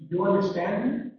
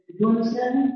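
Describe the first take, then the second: First: Me lifted at the end, quick; questioning rise. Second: Me rises high at the end; higher questioning rise. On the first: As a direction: check if they follow, rising. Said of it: "non-assertive". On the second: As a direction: ask with a clear lift on me. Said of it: "I change the information". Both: Shown as a demonstration.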